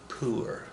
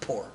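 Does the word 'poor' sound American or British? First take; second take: British; American. First: It is said with a British-sounding vowel. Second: It is said with a flat American vowel. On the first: "that sounded kind of British there" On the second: "It has a more flat American accent"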